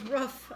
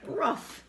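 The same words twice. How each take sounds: First: "Rough." said like the word rough, a short u; roof as rough. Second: "Rough." barked out through a laugh, like a dog. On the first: Retold or imitated. Mocking the friend's accent, roof said as rough. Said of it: "he goes". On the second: Shown as a demonstration. Teasing the friend's roof, a laughing dog-like rough. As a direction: repeat "Rough." laughing, like a dog's bark. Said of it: "That's something a dog says".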